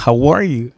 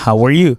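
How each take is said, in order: First: "How ARE you", the verb as the peak; stress on ARE. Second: "how are YOU", pronoun as the peak; stress on YOU. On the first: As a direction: voice climbs on ARE and drops on "you". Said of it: "Donc, on peut dire". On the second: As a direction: save the emphasis for YOU. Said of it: "Pas aucun problème". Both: Shown as a demonstration.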